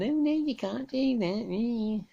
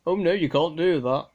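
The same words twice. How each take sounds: First: Mock busybody. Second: A louder hammed-up busybody protest; mock storming objection. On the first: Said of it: "somebody saying". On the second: Radio ham imitating a park busybody, mock loud objection. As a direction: play the busybody storming up to stop you. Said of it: "come storming up to you".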